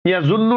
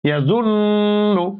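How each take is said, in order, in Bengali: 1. 'n' ধ্বনিটি দ্রুত চলে যায়, নাকে থামে না। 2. 'n' ধ্বনিটি নাকের গুনগুন সুরে টেনে ধরা হয়। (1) "না বলে" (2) "বলবো ইয়া জুন্নু"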